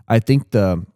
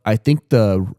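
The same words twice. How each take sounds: The two takes are said the same way.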